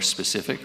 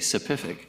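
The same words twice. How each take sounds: First: The s sounds are clear and crisp. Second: The s sounds are lisped, like th.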